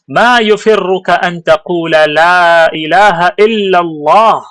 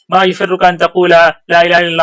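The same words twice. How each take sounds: First: It is read forcefully, with expressive Arabic delivery. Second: It is read flatly, without force.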